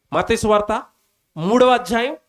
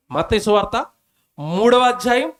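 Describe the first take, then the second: No difference in how they are said.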